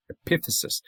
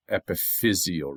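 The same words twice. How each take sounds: First: Epiphysis with PIF stressed; stress on second syllable. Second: Epiphyseal with FIZ stressed; stress on third syllable. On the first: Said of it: "accent on the second syllable". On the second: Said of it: "the accent moves to the third syllable". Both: Shown as a demonstration.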